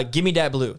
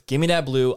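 First: Casual slang demand; slangy gimme. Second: Dat punched, louder on the repeat; stress on dat. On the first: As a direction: toss it off in street slang. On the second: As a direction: lean hard on dat. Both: Acted. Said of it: "Those are my three words".

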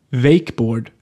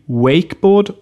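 First: Wakeboard with a v sound, "Vakeboard"; "Wakeboard" starting on a clear v; especially Swedish pronunciation. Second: Wakeboard with an English w glide; "Wakeboard" starting on English w; English pronunciation. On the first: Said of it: "besonders schwedisch ausgesprochen werden". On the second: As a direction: say "Wakeboard" the English way, rounded w, not v. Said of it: "werden diese Wörter auch so gesprochen". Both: Shown as a demonstration.

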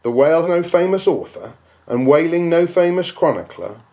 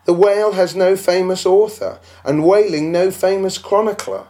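First: Indignant echo. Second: Higher, scoffing voice of the doubter; mock the skeptic who says it; scornful imagined critic; objector's voice. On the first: Acted. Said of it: "repeats the claim as question". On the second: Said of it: "you will say".

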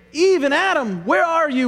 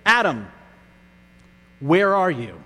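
First: Higher, louder, accusing question; demanding call. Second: Gentle call. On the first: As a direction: call them out sternly. God voiced in hypothetical rebuke. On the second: God's actual gentle question. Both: Pretend.

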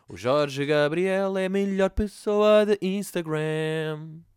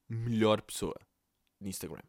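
First: Slow, loud, drawn-out announcement; grand proclamation. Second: Said in the usual way. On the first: Acted. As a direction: declare it like a grand award.

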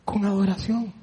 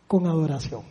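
First: Soft and low, stress on adoración; quiet reverent repeat; hushed again. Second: Very soft and low; soft, low, reverent; hushed. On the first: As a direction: let adoración land gently. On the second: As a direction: drop to a near hush for reverence. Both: Acted. Preacher repeats phrase softly.

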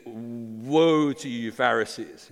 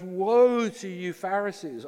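First: Said in the usual way. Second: High, slow aching woe; emotional woe. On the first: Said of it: "plain reading of verse". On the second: Pretend. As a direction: cry it out with grief, slower and higher. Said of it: "it's like this emotional response".

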